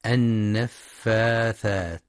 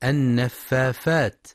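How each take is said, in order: First: "النفاثات" drawn out as an-naffathat; very slowly articulate th in "النفاثات"; correct tha. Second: "النفافات" with f replacing th; fa for tha. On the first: Teacher modelling the correct word, "النفاثات" with clear th. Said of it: "لنطقها الصحيح بالثاء". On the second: Teacher showing a children's mistake, "النفافات" with f for th. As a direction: slowly say "النفافات" as an-naffafat. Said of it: "يبدلون الثاء فاء". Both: Shown as a demonstration.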